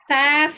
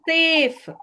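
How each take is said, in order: First: The vowel is a short 'a' sound. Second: The vowel is a long 'ay' sound. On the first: The speaker calls it wrong. "ಸ್ಯಾಫ್ ಅಲ್ಲ" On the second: The speaker calls it right.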